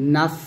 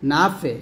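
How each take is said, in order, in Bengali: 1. শেষ ব্যঞ্জনবর্ণটি পরিষ্কারভাবে, বাতাস ছেড়ে দিয়ে শেষ হয়। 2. শেষ ব্যঞ্জনবর্ণটি প্রতিধ্বনির মতো ঝাঁকুনি দিয়ে শেষ হয়। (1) "বলতে হবে নাফ" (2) "এরকম একটা ডাবল শব্দ শব্দ করে ফেলি বা কলকলের মতো আওয়াজ করে ফেলি"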